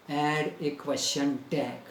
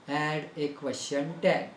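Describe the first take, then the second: No difference in how they are said.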